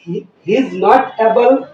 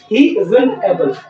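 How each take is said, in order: First: 'Is not' is said as two full words. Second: 'Is not' is shortened into one contracted word.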